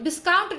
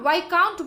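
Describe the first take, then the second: First: The s sound is pronounced in the word. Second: The s sound is left silent in the word. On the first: The speaker calls it wrong. "विस्काउंट नहीं professor साहब" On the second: The speaker calls it right. "विस्काउंट यानी उसमें silent था"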